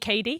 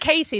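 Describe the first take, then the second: First: The name is said in an American accent. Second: The name is said in a British accent. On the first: This is how Americans say the name. "they call me Katie" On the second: This is how the speaker says her own name. "They don't call me Katie"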